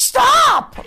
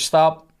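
First: Huge, high-pitched bellow of command; imitated shout. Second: Firm, fairly loud stop order; retold order. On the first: Cop with hand on gun to driver, imitated bellow. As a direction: yell it at full volume like the cop. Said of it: "Like that, right?". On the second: Cop to driver edging forward, firm order. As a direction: give a short command, not yet shouting. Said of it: "and he goes".

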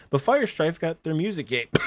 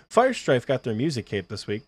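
First: Coughing through the words; coughing fit. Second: Said in the usual way. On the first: Real, not acted. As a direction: voice catching on a cough. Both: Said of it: "I'm sorry, I'm coughing so much".

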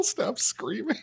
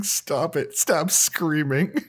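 First: High, laughing imitation of the host's yell; laughing mock yell. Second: High, drawn-out imitation of yelling; mock yell. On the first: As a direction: quote the yell while cracking up. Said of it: "he went to yell". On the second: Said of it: "but you screaming".

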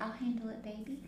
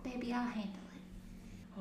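First: Soft doting caregiver voice; sweet grandma voice. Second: Soft, slow doting grandma voice. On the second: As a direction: coo it sweetly and slowly. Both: Retold or imitated. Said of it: "she had that grandma voice".

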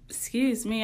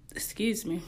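First: Said in the usual way. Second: Unvoiced, soft "excuse me"; whispered apology after a burp. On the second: Real, not acted. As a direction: breathe "excuse me" with no voice. Apologizes after burping mid-talk.

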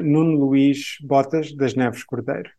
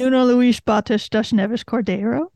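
First: Portuguese name said the Portuguese way; native Portuguese name. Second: Portuguese name in an American accent; anglicised Portuguese name. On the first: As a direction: give it the true Portuguese sounds. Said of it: "it goes like this". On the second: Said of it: "It's not good, but it's not bad". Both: Shown as a demonstration.

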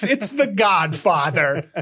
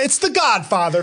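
First: "It's The Godfather" drawn out slowly, each word weighted; slow down and lean on "The Godfather" like it's obvious; slow emphatic repeat. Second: Said in the usual way. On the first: Shown as a demonstration. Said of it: "It's The Godfather, folks".

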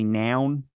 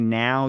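First: Baltimore "noun", with an N closing the word; Baltimore-accented "noun". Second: Said in the usual way. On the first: Shown as a demonstration. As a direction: say now as noun, Baltimore style. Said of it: "you say noun". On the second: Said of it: "when you say now".

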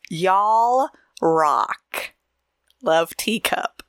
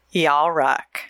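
First: A light Southern twang on "Y'all"; a light Southern accent on "Y'all rock"; mock Southern y'all. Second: Said in the usual way. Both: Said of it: "the way you said y'all".

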